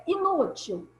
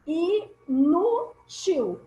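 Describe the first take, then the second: First: Said in the usual way. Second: "Inútil" broken slowly into I, NÚ, TIL; syllable by syllable. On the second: Shown as a demonstration. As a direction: say "Inútil" very slowly with a gap after each syllable. Splits example word into syllables.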